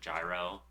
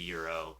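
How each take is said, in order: First: The word is pronounced the common American way. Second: The word is pronounced the Greek way. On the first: "everyone in America usually calls it gyro because of like how it would be read" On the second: "the Greek pronunciation would be Euro"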